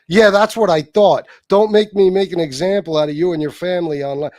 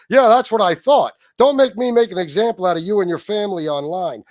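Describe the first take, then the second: First: It is read in his own voice. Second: It is read imitating J C's voice.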